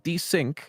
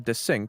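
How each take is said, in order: First: The first syllable sounds like 'dee'. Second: The first syllable sounds like 'dez'. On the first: It is the ordinary word for falling out of sync. "I'm desync, like the desync word" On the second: It joins parts of a personal name. "like a split of their name"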